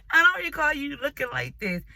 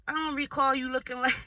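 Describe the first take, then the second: First: Higher and louder, breaking into laughter; laughing in disbelief. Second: Said in the usual way. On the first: Retold or imitated. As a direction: laugh the words out, unable to believe it. She confronts her ugly date.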